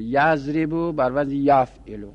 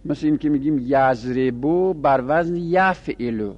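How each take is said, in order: First: یضربو stressed, the pattern said slowly; slow teaching repeat with یضربو stressed; slow, spelled out. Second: Said in the usual way. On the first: Shown as a demonstration. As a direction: lay out یضربو بر وزن یفعلو slowly for the class. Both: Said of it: "وزن تصریفی اینجوریه".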